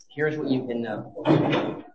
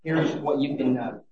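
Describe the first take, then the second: First: "Here's what you can know" said slowly, each word weighed; slow down and lean on "Here's what you can know"; slow emphatic repeat. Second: Said in the usual way. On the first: Shown as a demonstration. Preacher assuring believers, slow and emphatic.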